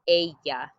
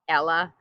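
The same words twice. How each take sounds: First: It is said with the Spanish pronunciation. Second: It sounds like the English girl's name. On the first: The speaker calls it right. "We say ella" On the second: The speaker calls it wrong. "It's not Ella like Cinderella or the girl's name Ella"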